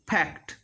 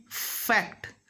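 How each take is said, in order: First: FACT with a P sound, "pact"; F made a P. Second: FACT with a long hissed F; drawn-out "fff-act" in FACT; clear F. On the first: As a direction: close both lips and pop the first sound of FACT as P. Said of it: "But this is wrong". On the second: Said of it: "It should be fact". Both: Shown as a demonstration.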